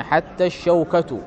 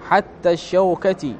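First: "الشوكة" ending in a short u, shaukatu; nominative ending. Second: "الشوكة" ending in a short i, shaukati; genitive ending. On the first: Teacher showing the nominative reading, "الشوكة" said shaukatu. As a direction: say "الشوكة" with final damma, as shaukatu. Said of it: "وبالرفع على أنها ابتدائية". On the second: Teacher showing the genitive reading, "الشوكة" said shaukati. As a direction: say "الشوكة" with final kasra, as shaukati. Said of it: "هذا على قراءة الجر". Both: Shown as a demonstration.

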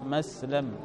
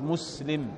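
First: مسلم said as muslam with a fatha on the lam; مسلم with an a before the final mim; open lam. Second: The ordinary masculine مسلم, i before mim. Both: Shown as a demonstration. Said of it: "لأن الميم هنا مفتوح".

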